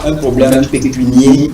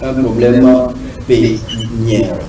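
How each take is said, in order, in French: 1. Le dernier mot se termine par un son 'ay'. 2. Le dernier mot se termine par un son 'air'. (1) "on ne dit pas un problème pécunier" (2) "mais on dit plutôt un problème pécuniaire"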